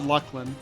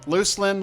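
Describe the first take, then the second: First: The second syllable starts with a k sound. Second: The second syllable starts with an s sound. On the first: "I call it Luclin" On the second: "people that still pronounce it as Luslin"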